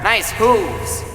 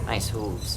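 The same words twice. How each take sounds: First: Enthusiastic. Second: Soft, low muttered repeat; quiet. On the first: Praising horse. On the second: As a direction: say it quietly to yourself. Repeat to himself. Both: Acted.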